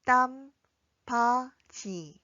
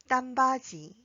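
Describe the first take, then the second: First: 땀바지 very slowly, pausing between syllables; drawn-out, separated 땀바지 for learners to follow. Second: 땀바지 joined as one word, ending in ji; 땀바지 run together for practice; connected model. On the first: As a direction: model 땀, 바, 지 one at a time. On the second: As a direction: say 땀바지 clearly without gaps. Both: Shown as a demonstration. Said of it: "함께 연습해 볼까요".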